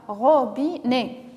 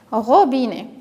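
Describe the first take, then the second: First: "Robinet" slow, in three beats, ro, bi, net; syllable by syllable. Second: Said in the usual way. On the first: Shown as a demonstration. Teacher recapping the chosen syllables, "Robinet" said syllable by syllable. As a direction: separate each syllable of "Robinet". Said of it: "se compose de trois syllabes". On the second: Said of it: "voilà le mot".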